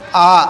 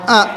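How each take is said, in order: First: The vowel is said low with the mouth open. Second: The vowel is said with the mouth less open. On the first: The speaker calls it right. "Yang harus terbuka. ... tapi A" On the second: The speaker calls it wrong. "Bukan A"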